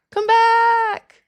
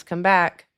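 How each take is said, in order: First: Much higher, louder drawn-out plea; playful high-pitched begging; mock wail. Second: Said in the usual way. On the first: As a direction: cry out to the leaving viewers. Begging viewers not to leave.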